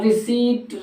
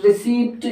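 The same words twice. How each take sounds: First: RECEIPT said "ri-SEET" with silent p; correct receipt. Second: रिसिप्ट with the p sounded, short i; wrong receipt. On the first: Teacher shows learners the word, रिसीट with silent p. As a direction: say रिसीट with long ee, no p sound. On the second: Teacher shows the mistake, रिसिप्ट with audible p. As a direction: say "ri-SIPT", pronouncing the p. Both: Shown as a demonstration. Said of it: "रिसिप्ट word नहीं होता".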